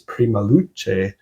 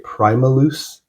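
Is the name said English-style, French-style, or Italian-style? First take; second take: Italian; English. First: The name is said with Italian pronunciation. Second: The name is said with English pronunciation. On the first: "founded by Italian members, so maybe it's" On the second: "If I were to say it like an English person"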